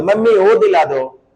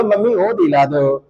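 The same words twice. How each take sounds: First: Said in the usual way. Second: Mild mock-crying plea; pretend tearful pleading. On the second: Child begging mummy to buy something, pretend tearful pleading. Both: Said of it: "अरे रो कर भी तो बोलो".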